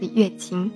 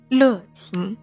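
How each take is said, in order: First: The first syllable is pronounced yue. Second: The first syllable is pronounced le. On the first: The speaker calls it right. "乐清正确的读法是乐琴，音乐的乐" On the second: The speaker calls it wrong. "有90% 的外地朋友会把乐清读成乐清"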